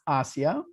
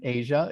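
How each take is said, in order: First: It sounds different from the continent's name. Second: It sounds like the continent's name. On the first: This is how her name is said. The speaker calls it right. "It's pronounced Asia" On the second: This is how the continent is named. The speaker calls it wrong. "not pronounced like the continent Asia"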